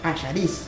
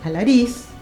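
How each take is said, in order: First: The name is said in the Argentine way. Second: The name is said in the presumed Spanish way. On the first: This is how people here would say it. "nosotros decimos Allariz" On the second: This is how it is supposedly said where it is. "se pronunciará así, no sé"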